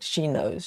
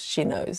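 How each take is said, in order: First: Said in the usual way. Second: Whisper. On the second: Acted. Teasing repeat of she knows.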